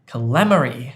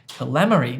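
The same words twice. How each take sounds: The two takes are said the same way.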